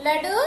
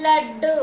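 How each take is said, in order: First: లడు with a single light డ; said without vattu. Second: లడ్డు loud, with a held double డ్డ; said with vattu. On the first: Teacher contrasting spellings for children, single-consonant లడు. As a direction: say లడు short, no held consonant. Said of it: "లేకుండా రాసినప్పుడు ఎలా పలుకుతున్నాము". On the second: Teacher contrasting spellings for children, emphatic double లడ్డు. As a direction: punch and hold the డ్డ in లడ్డు. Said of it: "ఒత్తు ఇచ్చిన తర్వాత ఎలా పలుకుతున్నాము". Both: Shown as a demonstration.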